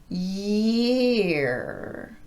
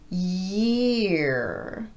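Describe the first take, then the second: No difference in how they are said.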